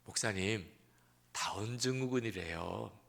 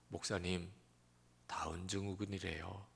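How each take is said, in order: First: It is said in a bright, cheerful tone. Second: It is said in a low, subdued tone. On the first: The news is taken as something good. "그렇게 밝게 이야기를 하시는 거예요" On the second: The news is taken as something sad. "쫙 가라앉은 목소리로"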